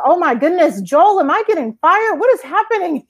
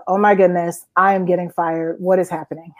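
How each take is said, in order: First: High, alarmed squeak of worry; mock panic. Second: Said in the usual way. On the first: Asking boss Joel in alarm if she is being fired, high mock panic. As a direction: play it as sudden comic dread.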